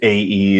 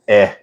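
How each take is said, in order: First: It is said as two separate letter names. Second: It is said as one short vowel sound. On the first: This is the speaker's casual everyday reading. "I just say A E" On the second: This is the technically correct Scandinavian reading. "it's eh in in Scandinavian, which is how they technically pronounce it"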